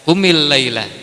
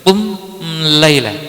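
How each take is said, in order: First: An 'i' vowel links qum to laila. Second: Qum runs straight into laila without a vowel. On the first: The speaker calls it right. "maka dibaca qumil laila" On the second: The speaker calls it wrong. "karena susah dibaca qum laila"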